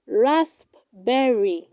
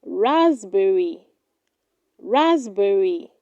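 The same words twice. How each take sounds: First: Raspberry split as "rasp, berry"; wrong pronunciation. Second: Raspberry said as "RAZ-berry"; correct pronunciation. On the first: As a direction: sound the p in raspberry, pause before berry. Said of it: "Do not say raspberry". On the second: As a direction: silent p and a z sound in raspberry. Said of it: "It is pronounced". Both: Shown as a demonstration.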